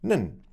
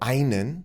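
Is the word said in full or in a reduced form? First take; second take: reduced; full. First: The word is shortened to a single syllable. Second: The word is said with both syllables in full. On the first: "might be pronounced nen"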